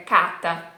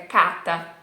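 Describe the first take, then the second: First: The R is left out entirely. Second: The R is left out entirely.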